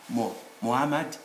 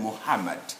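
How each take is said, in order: First: The h sound is left out. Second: The h sound is breathy and audible. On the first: The speaker calls it wrong. "they should be forgiven when they pronounce Mo Muhammad" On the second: The speaker calls it right. "rather than Muhammad"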